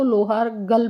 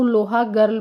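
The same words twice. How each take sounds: First: The "लोहार गल" version, r kept and gal short; lohār gal variant. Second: Put-on the "लोहा गर्ल" version, like loha girl; lohā gart variant. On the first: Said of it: "कुछ लोग इसको लोहार गल भी बोलते हैं". ("लोहार गल" को लोहार और छोटा गल बोलें) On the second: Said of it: "कुछ लोग इसको लोहा गर्ल भी बोलते हैं". ("लोहा गर्ल" को लोहा गर्ल जैसा बोलें) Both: Shown as a demonstration.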